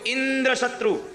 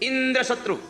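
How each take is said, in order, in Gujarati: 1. બીજો શબ્દ પહેલા કરતાં વધારે ભારથી બોલાય છે. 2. પહેલો શબ્દ બીજા કરતાં વધારે ભારથી બોલાય છે. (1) "ઇન્દ્ર નાનો હતો, શત્રુ મોટો હતો" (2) "ઇન્દ્ર મોટો થઈ ગયો, શત્રુ નાનો થઈ ગયો"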